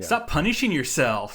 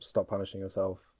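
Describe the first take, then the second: First: It is said in a taunting tone. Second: It is read in a plain tone.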